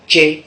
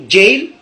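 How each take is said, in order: First: "dje" with no final l; Godié pronunciation. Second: "jail" closing on an l; English pronunciation. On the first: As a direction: cut "jail" down to an open djè. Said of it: "en gaudier, nous on dit". (« dje » à la godié, sans l final) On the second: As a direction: sound the final l of "jail". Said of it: "les Anglais appellent les prisons". (« jail » à l'anglaise, avec le l final) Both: Shown as a demonstration.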